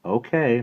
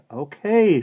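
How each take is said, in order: First: Said in the usual way. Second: High, loud shouted reply. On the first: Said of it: "not raising her voice". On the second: A narrator's reading. Maggie answers her aunt's call, shouting. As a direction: shout back down the stairs. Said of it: "she shouted".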